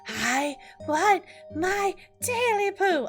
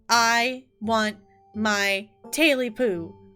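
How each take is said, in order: First: It is said in a high, hoarse, croaking voice. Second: It is said in a plain voice.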